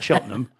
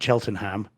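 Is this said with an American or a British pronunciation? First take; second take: British; American. First: It is said with a British pronunciation. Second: It is said with an American pronunciation. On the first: This is how locals say it. The speaker calls it right. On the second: This is how Americans would say it. The speaker calls it wrong.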